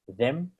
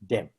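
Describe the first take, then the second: First: The word starts with a soft th sound. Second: The word starts with a hard d sound. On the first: The speaker calls it right. "instead of saying them" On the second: The speaker calls it wrong. "they say them"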